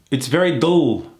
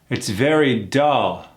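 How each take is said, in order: First: The vowel is pulled back and swallowed. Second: The vowel is kept open and forward. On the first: The speaker calls it wrong. "That L swallows that uh sound" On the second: The speaker calls it right. "Versus keeping it open and forward"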